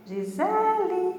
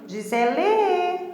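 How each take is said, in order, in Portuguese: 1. A sílaba tônica é a segunda. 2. A sílaba tônica não é a segunda. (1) "é Gisele" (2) "Eu não vou falar assim"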